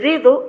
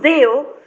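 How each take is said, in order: First: The middle d sound is clearly pronounced. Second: The middle d sound is dropped. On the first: The speaker calls it right. "en vez de dedo" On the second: The speaker calls it wrong. "nosotros decimos deo"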